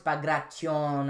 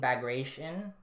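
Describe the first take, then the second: First: The name is said with Russian sounds. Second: The name is said with English sounds. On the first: "I know it's bagration" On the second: "people complain about me saying bagration"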